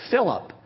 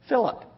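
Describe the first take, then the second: No difference in how they are said.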